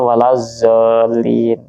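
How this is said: The last word starts with a z-like sound.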